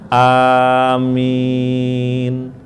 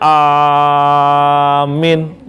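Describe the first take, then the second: First: The first vowel is short, the second long. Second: The first vowel is drawn out long. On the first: The speaker calls it right. "A-nya itu paling panjang dua harokat" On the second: The speaker calls it wrong. "ada yang A-nya panjang"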